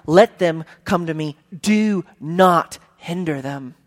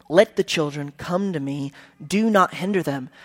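First: Slow, firm command, each word pressed; preacher showing Jesus' repeated command, slow and firm. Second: Said in the usual way. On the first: Shown as a demonstration. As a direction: insist on it like an exclamation point. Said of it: "He's commanding them". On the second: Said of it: "you say the same thing twice".

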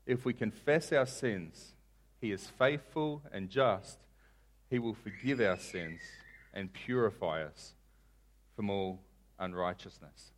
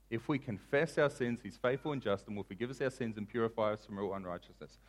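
First: Soft, slow, phrase by phrase; measured, with pauses, sinking at the end; slow scripture reading. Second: Said in the usual way. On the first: Shown as a demonstration. Preacher quoting John to the congregation, slowly. Verse read slowly, then repeated quicker.

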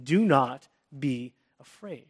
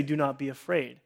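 First: Firm command. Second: Reassuring. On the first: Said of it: "he gives us a very strong command". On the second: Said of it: "a second tone in which someone can say". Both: Shown as a demonstration.

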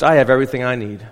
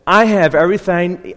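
First: Said in the usual way. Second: Accidental Southern twang; Southern accent. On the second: Real, not acted. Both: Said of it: "I just became Southern now".

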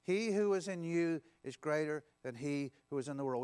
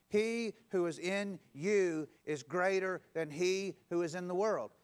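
First: Said in the usual way. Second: Slow, measured, each word laid out for the crowd to follow; slow call-and-response. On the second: Shown as a demonstration. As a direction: lead the room through it slowly. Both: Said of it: "Will you say that with me?".

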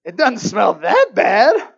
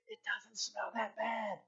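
First: Slow, loud mock denial; loud protest. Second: Very quiet, slow confession; private inner voice. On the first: Man dodging the kitty litter chore, loud protest. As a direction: belt out the excuse. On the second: Retold or imitated. Husband in his heart dodging litter, hushed. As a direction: voice the secret thought in a hushed tone. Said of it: "But in my heart, I was really like".

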